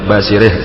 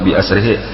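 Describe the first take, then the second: First: The words merge and end in an h sound. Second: The words stay separate and end in a vowel. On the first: The speaker calls it wrong. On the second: The speaker calls it right.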